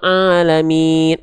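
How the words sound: The voice is nasal, air going through the nose. The speaker calls it wrong. "kalau dia masuk ke rongga hidung jadinya begini"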